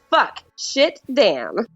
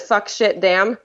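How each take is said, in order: First: It is said with strong passion and energy. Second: It is said tentatively, without much passion.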